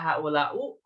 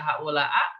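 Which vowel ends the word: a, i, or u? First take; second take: u; a. First: The word ends in the vowel u. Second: The word ends in the vowel a. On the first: "Nggak dibaca haulau" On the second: "nggak dibaca haulaa"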